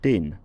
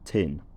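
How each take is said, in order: First: The t is said without a puff of air. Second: The t is said with a puff of air.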